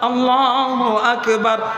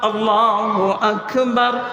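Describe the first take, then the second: Both takes have the same delivery.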